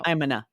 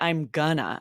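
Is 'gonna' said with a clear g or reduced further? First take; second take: reduced; clear g. First: Gonna is reduced further, with no g sound. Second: Gonna is said with a clear g sound. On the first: "I just say" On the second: "I don't even say"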